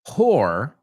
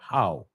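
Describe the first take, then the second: First: The word ends with a clear r sound. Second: The word ends on a vowel, no r sound.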